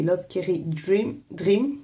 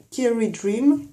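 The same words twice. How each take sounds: First: Dream said the French way, "dim" with a flat French r; French-accented brand name, slightly slow; strong French accent. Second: Said in the usual way. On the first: Shown as a demonstration. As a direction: say Love Carry Dream with a heavy French accent. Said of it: "l'accent bien français". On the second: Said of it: "En français".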